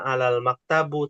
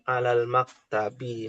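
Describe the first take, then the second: First: The last word ends with an 'u' vowel. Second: The last word ends with an 'i' vowel. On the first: The speaker calls it wrong. "Bukan alal maktabu" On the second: The speaker calls it right. "tapi alal maktabi"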